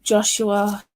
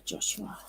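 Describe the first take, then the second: First: Said in the usual way. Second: The name whispered under her breath; soft unvoiced repeat of the name. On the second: Real, not acted. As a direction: whisper it to yourself.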